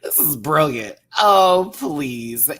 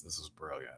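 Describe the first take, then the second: First: Louder, proud and emphatic on brilliant; loud declaration. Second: Softer, under the breath, firm and sure; quiet insistence. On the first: Host to viewers, loudly declaring the look brilliant. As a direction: proclaim it to the whole room. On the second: Host to viewers, quietly insisting the look was brilliant. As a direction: murmur it like a private verdict. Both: Real, not acted. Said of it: "I don't care what anybody says".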